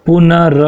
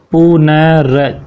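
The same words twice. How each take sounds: First: Said in the usual way. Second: "पुनर" very slowly as pu-na-ra; syllable breakdown. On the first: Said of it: "र कहाँ पर बोला आपने". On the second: Shown as a demonstration. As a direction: stretch each syllable of "पुनर", sounding the r. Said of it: "र मतलब न के बाद बोला". ("पुनर" बहुत धीरे तोड़कर)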